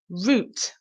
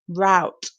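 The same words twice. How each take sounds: First: It rhymes with 'boot'. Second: It rhymes with 'out'. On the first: "the British version, we pronounce it like we would the um, the vegetable, the root vegetable" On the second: "the U S A pronunciation is route"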